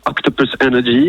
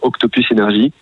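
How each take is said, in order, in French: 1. Le nom est prononcé avec un accent anglais. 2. Le nom est prononcé avec un accent français. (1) "si vous voulez dire Octopus Energy, il n'y a pas de problème" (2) "on prononce plutôt euh, Octopus Energy"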